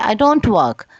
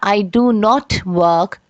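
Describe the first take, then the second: First: 'Do not' is contracted to 'don't'. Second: 'Do not' is said in full. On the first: "लिखा है I डोंट work" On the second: "की जगह लिखा है"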